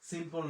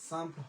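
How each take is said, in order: First: The first vowel is a plain 'i' sound. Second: The first vowel is a nasal 'a' sound. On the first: The speaker calls it wrong. "সিম্পল না হইয়া" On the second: The speaker calls it right. "সাম্প হয়"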